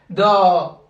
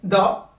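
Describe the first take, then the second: First: The vowel is drawn out long. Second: The vowel is said short. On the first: "il y a toujours la prolongation" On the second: "c'est court"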